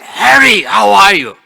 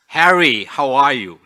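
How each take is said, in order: First: It is said in a raised, louder voice. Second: It is said at normal speaking volume.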